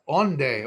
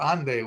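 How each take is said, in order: First: The word starts with an O sound. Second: The word starts with an A sound. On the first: "we say" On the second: "we say"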